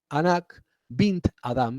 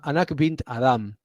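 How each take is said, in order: First: The name is said slowly and deliberately. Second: The name is said at a normal pace.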